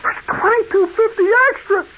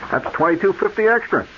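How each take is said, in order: First: Shocked disbelief. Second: Said in the usual way. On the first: Retold or imitated. Customer echoing the surprise charge in shock. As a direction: throw the price back in disbelief.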